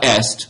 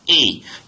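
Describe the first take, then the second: First: The word ends with audible s and t. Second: The word sounds like a bare vowel. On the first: The speaker calls it wrong. "It's not est, that's Latin" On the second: The speaker calls it right. "Careful with your pronunciation of that verb"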